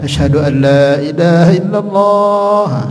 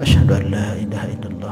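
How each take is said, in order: First: It is said loudly, for others. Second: It is said quietly, for oneself.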